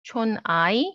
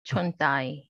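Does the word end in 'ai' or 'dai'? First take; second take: ai; dai. First: The word ends with a plain 'ai' sound. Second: The word ends with a 'dai' sound. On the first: This is the standard way to say it. "not 촌아이" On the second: This is how people from the island say it. "people from Jeju, you know, like they pronounce it as dai"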